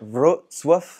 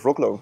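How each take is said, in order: First: The middle consonant sounds like ts. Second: The middle consonant sounds like a k. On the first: The speaker calls it right. "that was good" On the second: The speaker calls it wrong. "I said Wroclaw"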